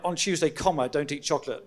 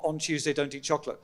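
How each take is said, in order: First: There is a break after 'Tuesday'. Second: There is no break after 'Tuesday'. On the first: The warning was given on Tuesday and applies every day. The speaker calls it right. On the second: Chocolate is banned only on Tuesdays. The speaker calls it wrong.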